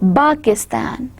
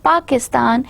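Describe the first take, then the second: First: The word begins with a b sound. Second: The word begins with a p sound.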